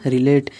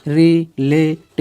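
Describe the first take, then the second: First: Said in the usual way. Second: "रिलेट" slowly as ri, le, t with gaps; drawn-out, separated "रिलेट"; syllable by syllable. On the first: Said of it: "इतना हो गया". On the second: Shown as a demonstration. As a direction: sound out "रिलेट" one piece at a time. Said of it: "इसे रिलेटिव पढ़ सकते हैं".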